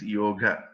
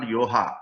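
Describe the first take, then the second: First: Yoga with a hard g and short final a; correct pronunciation with g. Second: Yoha, the g softened to h; mispronounced with h. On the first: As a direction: say "yoga" as YOH-guh. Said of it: "It is yoga". ("yoga" with a clear g, the end kept short) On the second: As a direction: say "yoha" like poha. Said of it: "It's not yoha". ("yoha" with h where the g should be) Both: Shown as a demonstration.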